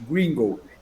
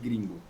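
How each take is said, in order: First: It is said in a put-on foreign accent. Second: It is said in a plain Brazilian accent. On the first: "o sotaque que nós fazemos para falar o gringo" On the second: "a gente não chama ele de gringo"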